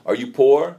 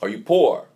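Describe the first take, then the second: First: Louder, rising challenge on poor; pointed question. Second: Falling, settled echo on poor; repeated question. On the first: Preacher quoting Abuna Lua to people, rising challenge. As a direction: press the word poor upward and louder. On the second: Preacher repeating Abuna Lua's question, falling and firm. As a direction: let poor drop, asking it again firmly. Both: Retold or imitated. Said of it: "say to people".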